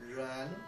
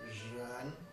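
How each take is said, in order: First: The first sound is like a smooth English r. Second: The first sound has a buzzing friction. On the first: "sometimes that friction is so light, it just sounds like an English R" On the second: "there's a little friction that comes out of the mouth"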